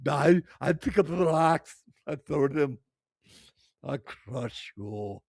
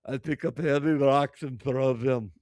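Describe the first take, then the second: First: Booming mock Arnold Schwarzenegger voice in an Austrian accent, much louder and higher, slowing down on the last words; female Arnold. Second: Mock thick Russian accent, much louder and a touch higher; hammed-up Russian strongwoman, loud and proud. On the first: Streamer mocking the strongwoman as a female Arnold, loud hammed-up Austrian accent. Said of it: "sound like a fucking female Arnold". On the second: Streamer mocking the strongwoman's hobby, loud mock Russian accent. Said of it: "she says in a thick Russian accent".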